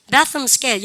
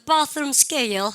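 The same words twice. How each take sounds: First: Said in the usual way. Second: British "bathroom scale", drawn out slowly; British accent. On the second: Shown as a demonstration. Teacher shows how the British say it, British accent. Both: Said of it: "영어 있던".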